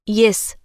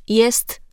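First: "Jes" without its final t; clipped ending. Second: "jest" with a crisp final t; full ending. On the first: Diction coach demonstrating a common error, final t dropped in "Jes". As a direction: cut "Jes" off after the s. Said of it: "Ucinanie końcówek wyrazów to norma". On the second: Diction coach correcting a common error, final t sounded in "jest". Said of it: "Jes zamiast jest". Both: Shown as a demonstration.

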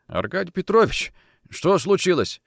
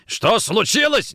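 First: High, bewildered question; anxious question. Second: Slow, loud, high furious echo; angry echo. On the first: Bedridden Kochkin to his boss, anxious question. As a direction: ask with worried surprise. Sick man startled by boss's arrival. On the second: Nikitin grabbing Kochkin, angry echo. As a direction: hurl the question back, drawn out. Officer angrily throws question back. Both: Acted.

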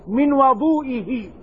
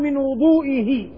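First: "وضوئه" with an "a" after the w, wa-DOO-i-hi; slow "وضوئه", opening on wa-; fatha on the waw. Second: "وضوئه" with a "u" after the w, wu-DOO-i-hi; damma on the waw. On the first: Teacher reading the hadith's exact wording, fatha on the waw. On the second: Teacher showing what the narrator did not say, damma on the waw. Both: Shown as a demonstration. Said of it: "ما ضم الواو".

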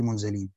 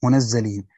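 First: منزلين read light, zay without doubling, munzilīn; منزلين without shadda; light reading munzilin. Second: منزلين read munazzilīn, the zay doubled and held; منزلين with shadda on the zay; doubled zay munazzilin. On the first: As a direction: say منزلين with a short, single z. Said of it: "وقرأ الآخرون بالتخفيف". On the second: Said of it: "قرأ ابن عامر بتشديد الزاي". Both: Shown as a demonstration.

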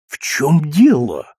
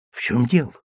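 First: Slow, dazed question; stunned. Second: Said in the usual way. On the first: Acted. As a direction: force the words out in shock. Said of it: "удалось, наконец, выговорить". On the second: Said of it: "narrator's plain question".

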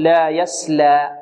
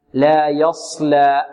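First: لا يسلى with a thin, light s; sin for sad. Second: Slow لا يصلى with a thick, dark s; heavy sad. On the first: Teacher showing students the opposite, light sin. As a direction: use a plain sin in يسلى. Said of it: "في مقابلها السين تقول". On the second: Teacher making the contrast clear, heavy sad. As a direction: give يصلى a fully emphatic sad. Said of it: "تفخيم الصاد". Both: Shown as a demonstration.

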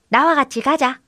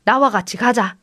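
First: Higher-pitched echo; lightly voiced copycat goat; mimicking goat. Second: Said in the usual way. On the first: A narrator's reading. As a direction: repeat it as a little talking goat. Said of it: "그대로 흉내를 냈습니다".

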